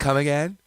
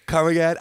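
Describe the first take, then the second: First: Puzzled request to repeat, a little raised; first polite ask. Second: Louder, higher puzzled request; second, more insistent ask. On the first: Listener who didn't catch the accent, politely puzzled. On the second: Listener asking a second time, louder and more insistent. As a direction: press them to repeat it, louder. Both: Acted. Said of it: "you can only ask twice".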